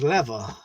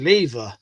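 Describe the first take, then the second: First: The word is said the American way. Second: The word is said the speaker's British way.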